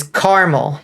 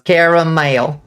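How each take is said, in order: First: Caramel squeezed into two syllables, CAR-mul. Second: Caramel with every syllable fully sounded, CARE-uh-mayl; three-syllable caramel. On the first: Quoting chat's version to reject it, two-syllable caramel, CAR-mul. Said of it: "that's just three whole syllables". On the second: Arguing with chat for three whole syllables, caramel as CARE-uh-mayl. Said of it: "three whole syllables". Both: Shown as a demonstration.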